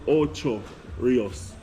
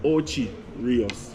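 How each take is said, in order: First: The first word ends with an 'oh' sound. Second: The first word ends with an 'ee' sound. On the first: This is the official form of the name. "the proper name word for it is" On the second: This is what local people actually say. "in Jamaica, we call it"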